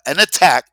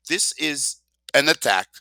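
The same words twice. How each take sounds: First: "attack" hit hard and loud; stress on attack. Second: "an" lifted and stressed, "attack" falling. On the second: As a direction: lean on "an" in "This is an attack". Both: Shown as a demonstration.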